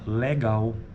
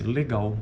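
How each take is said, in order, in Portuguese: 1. A primeira vogal é um e aberto. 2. A primeira vogal é um e fechado. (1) "Mas tem ocorrência também" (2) "O que mais ocorre, na verdade, na sua maioria"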